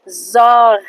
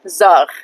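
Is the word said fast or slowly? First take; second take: slowly; fast. First: The word is said very slowly. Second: The word is said fast and naturally. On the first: "I'll say it very slowly" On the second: "when you say it fast and normally"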